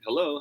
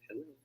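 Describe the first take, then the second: First: It is said at a natural speaking volume. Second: It is said very quietly and weakly. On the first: The speaker calls it right. "the statement that is closest to your natural volume" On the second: The speaker calls it wrong. "Hindi naman sobrang hina like, hello. No"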